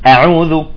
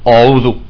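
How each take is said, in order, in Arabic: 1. الهمزة الأولى مرقّقة وخفيفة. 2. الهمزة الأولى مفخّمة وثقيلة.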